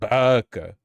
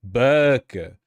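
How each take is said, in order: First: It is said the way guys say it. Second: The same.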